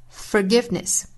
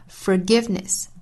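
Both takes have the same delivery.

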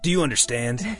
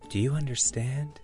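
First: It is asked in a harsh, condescending tone. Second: It is asked in a gentle, friendly tone.

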